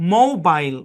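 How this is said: The last syllable rhymes with 'mile'. "ব্রিটিশরা মোবাইল"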